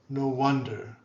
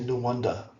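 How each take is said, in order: First: The ending is not a drawn-out uh vowel. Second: The ending is a drawn-out uh vowel.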